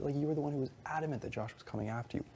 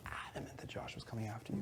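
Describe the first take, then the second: First: Said in the usual way. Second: Softer, breathy whisper of "Adamant"; hushed whisper repeating the accusation. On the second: Retold or imitated.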